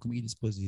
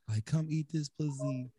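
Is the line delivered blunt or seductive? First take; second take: blunt; seductive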